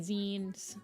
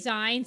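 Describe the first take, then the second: First: The word rhymes with magazines. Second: The word does not rhyme with magazines. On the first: The speaker calls it right. "it's supposed to be zines because it's magazines" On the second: The speaker calls it wrong. "I say zines"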